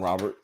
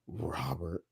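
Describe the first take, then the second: First: The name is said in a formal, dignified way. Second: The name is said in a sleazy, suggestive way. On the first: "All distinguished" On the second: "Make it dirty. Make it sound nasty"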